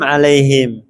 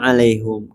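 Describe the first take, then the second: First: The h is followed by an i vowel. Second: The h is followed by a u vowel. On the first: "yang pertama kita mengkasrohkannya alaihim" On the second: "qiraah yang kedua dengan mendomahkan haknya alaihum"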